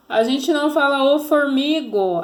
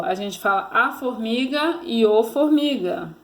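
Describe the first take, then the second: First: "o formigo" dito alto, com o artigo "o" marcado e mais agudo; wrong form stressed. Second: Said in the usual way. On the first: Shown as a demonstration. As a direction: marque o erro em "o formigo". (ênfase no erro "o formigo")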